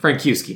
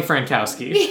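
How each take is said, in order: First: "Frankowski" with KYOO in the middle; alternative pronunciation. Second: "Frankowski" with COW in the middle; first pronunciation. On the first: Podcaster second-guesses the name, "Frankowski" as frank-KYOO-skee. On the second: Podcaster corrects co-host on the name, "Frankowski" as frank-COW-skee. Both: Shown as a demonstration. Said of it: "maybe, I don't know".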